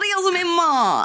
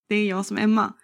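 First: The voice rises into a high squeak. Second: The voice is plain and natural. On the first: "jag gnäller till med rösten jättemycket" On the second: "på mitt sätt att säga"

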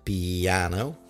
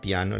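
First: It is said with an American accent. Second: It is said with a Spanish diphthong.

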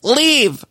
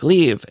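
First: The word is shouted much more forcefully. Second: The word is shouted at moderate loudness. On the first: The speaker calls it right. "no, shout it more. And she's like" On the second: The speaker calls it wrong. "just shout it. And so she would do it and she'd be like"

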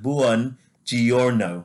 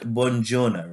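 First: Every vowel is sounded out clearly. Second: The vowels run together quickly. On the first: The speaker calls it right. "basically they sound out every single vowel" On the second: The speaker calls it wrong. "So I thought it was like buongiorno, right? But it's not"

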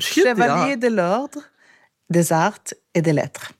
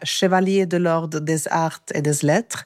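First: The French title is pronounced more carefully. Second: The French title is pronounced sloppily. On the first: The speaker calls it right. "jag måste säga det igen" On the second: The speaker calls it wrong. "det var sjukt dåligt uttal faktiskt"

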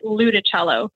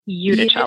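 First: The name begins with an L sound. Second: The name begins with an I-U diphthong. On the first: The speaker calls it wrong. "Most Americans don't like that diphthong, that I and the U. They want it to be an L. So we usually get Iudicello" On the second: The speaker calls it right. "but it's Iudicello"

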